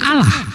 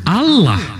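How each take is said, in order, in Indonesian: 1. Bunyi L-nya pendek dan ringan. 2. Bunyi L-nya ditahan panjang dan ditekan. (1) "kalau L-nya satu" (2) "kalau dua"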